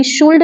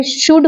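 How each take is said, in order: First: शुल्ड with a sounded L, shool-d; wrong should. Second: शुड slow, L silent, like shood; correct should. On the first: Teacher shows students the wrong शुल्ड with the L sounded. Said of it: "शुल्ड नहीं होता". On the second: Teacher shows students the right शुड slowly with silent L. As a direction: drag out शुड, no L sound at all. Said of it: "शुड होता है". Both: Shown as a demonstration.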